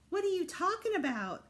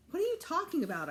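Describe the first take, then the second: First: A hint of mock whiny echo; mocking mimicry. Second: Said in the usual way. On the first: Brother mimics him to tease him, mocking. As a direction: parrot it back to tease. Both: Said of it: "Alex mimicked".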